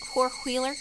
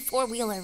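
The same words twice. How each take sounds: First: It is said in an imitated Southern accent. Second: It is said in the speaker's plain accent. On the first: "They go like four wheeler" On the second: "I'm saying four wheeler"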